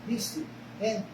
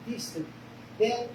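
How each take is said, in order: Both takes have the same delivery.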